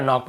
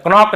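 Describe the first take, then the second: First: Said in the usual way. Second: क्रॉक said as "k-nock", K before the N; K sounded. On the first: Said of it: "केवल नॉक पढ़ेंगे". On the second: Shown as a demonstration. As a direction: voice the silent K of knock in क्रॉक. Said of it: "क्रॉक नहीं पढ़ेंगे".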